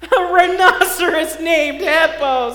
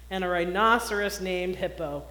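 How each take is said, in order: First: Louder, higher, slow and laughing; laughing loudly. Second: Said in the usual way. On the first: A narrator's reading. Fluffy teasing the rhinoceros about his name, loud laughing. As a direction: crow it through laughter. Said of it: "said Fluffy".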